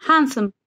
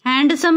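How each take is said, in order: First: हैंडसम said as hansom, with a silent d; हैंडसम with the d left silent; correct pronunciation. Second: हैंडसम with the d pronounced, as a mistake; हैंडसम with a sounded d, the wrong way; wrong pronunciation. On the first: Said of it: "हैंडसम नहीं होता है". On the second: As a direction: say हैंडसम with a clear d, to show the wrong way. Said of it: "नहीं होता है". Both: Shown as a demonstration.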